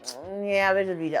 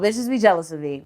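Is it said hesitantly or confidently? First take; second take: hesitantly; confidently. First: It is said hesitantly and trails off. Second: It is said firmly and with confidence.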